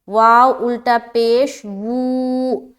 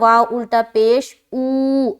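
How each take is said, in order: First: The final syllable begins with a v sound. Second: The final syllable is a bare oo vowel. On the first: The speaker calls it right. "वू वाली साउंड आएगी" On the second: The speaker calls it wrong. "वो गलत पढ़ रहे होते हैं"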